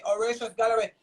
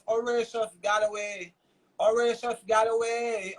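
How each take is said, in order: First: Said in the usual way. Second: Horatius Galloway said slowly, each syllable spaced; slowly and deliberately say Horatius Galloway so it sticks; spelled out slowly. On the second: Shown as a demonstration. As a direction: Horatius Galloway drawn out for the audience to remember. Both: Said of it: "Remember the name".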